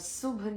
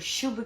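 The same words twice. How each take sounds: First: The word begins with an 's' sound. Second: The word begins with an 'sh' sound. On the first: The speaker calls it wrong. "श और स की गड़बड़" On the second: The speaker calls it right. "शुभ की जगह"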